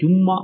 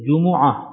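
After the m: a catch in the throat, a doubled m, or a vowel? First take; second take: doubled; vowel. First: The m is doubled with no catch. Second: A u vowel follows the m. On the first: The speaker calls it wrong. "ஜும்மா இல்லை, அந்த மீமும் ஐனும் வர வேண்டும்" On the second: The speaker calls it right. "ஜீமுக்கும் வம்மம், மீமுக்கும் வம்மம்"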